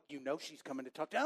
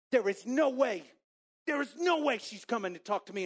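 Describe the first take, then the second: First: Low, soft, quick inner voice; acted knowing retort. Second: High, loud, insistent denial; acted disbelief. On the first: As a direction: answer yourself fast, dropped low and soft. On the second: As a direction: deny it emphatically, pitched up. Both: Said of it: "I'm having this internal dialogue".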